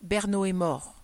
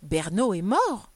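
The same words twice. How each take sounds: First: Terse, grave announcement; solemn, falling, understated tragedy; brief, tragic voice. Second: Loud, slow, astonished question; incredulous exclamation, stretched and loud; spontaneous cry. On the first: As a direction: break the death news gravely, in few breaths. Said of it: "dit d'une voix brève et tragique". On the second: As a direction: blurt it out in drawn-out surprise. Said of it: "lançait ce cri spontané". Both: A narrator's reading.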